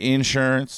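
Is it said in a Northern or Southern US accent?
Southern. It is said in a Southern US accent.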